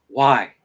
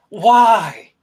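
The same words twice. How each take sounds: First: Low mock-despairing plea; low, defeated question. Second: Louder, drawn-out whine of protest; loud protesting echo. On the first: Man questioning his own body in the bathroom, low and defeated. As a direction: ask it lower, like giving up. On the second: Acted. Body part answering the man back, loud mock protest. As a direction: throw the question back loudly.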